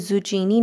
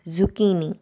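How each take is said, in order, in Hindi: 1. बीच का व्यंजन 'ch' की आवाज़ है। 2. बीच का व्यंजन 'k' की आवाज़ है। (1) "ज़ुचीनी नहीं बोलना है" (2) "इसको ज़ुकीनी बोलना है"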